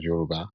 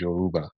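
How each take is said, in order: First: The word is said in the native Yoruba way. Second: The word is said in an anglicized way. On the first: The speaker calls it right. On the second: The speaker calls it wrong.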